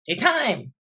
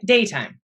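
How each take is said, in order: First: "daytime" as day-TIME, higher on the end; stress on second syllable. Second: "daytime" as DAY-time; stress on first syllable. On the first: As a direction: lift and hit the second half of "daytime". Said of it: "Sounds funny". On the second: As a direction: hit the front of "daytime". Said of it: "day gets more of a hit". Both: Shown as a demonstration.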